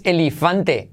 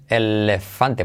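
First: "elefante" lento, como "elifante"; "elefante" con i. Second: "elefante" lento y grave, marcando "lef"; "elefante" con e. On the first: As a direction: di "elefante" cambiando la e central por i. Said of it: "No dices elefante". ("elefante" mal dicho, "elifante") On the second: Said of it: "Se dice elefante". ("elefante" silabeado, con e clara) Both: Shown as a demonstration.

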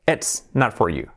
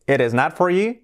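First: "It's not for you" with a clear TS in "It's"; slow "It's", sharp TS; contracted. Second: "it is not for you" linked as "eres not for you"; full "it is" run together with a tapped T; uncontracted but joined "it is not for you"; linked full form. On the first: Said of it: "Podemos contraerlo". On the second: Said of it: "podemos decir". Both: Shown as a demonstration.

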